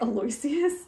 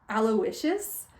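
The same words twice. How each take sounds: First: The name is said the way it is spelled. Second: The name is said differently from its spelling. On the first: The speaker guessed the pronunciation from the spelling. "I was pronouncing it Aloysius because like that's how it's spelled" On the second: This is how the name is really pronounced. "Apparently his first name's pronounced Aloysius"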